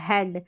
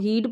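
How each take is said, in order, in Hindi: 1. यह स्वर छोटा e ध्वनि है। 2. यह स्वर लंबा ee ध्वनि है। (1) "ई ए को ए करके पढ़ा" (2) "इसको हीड पढ़ देंगे"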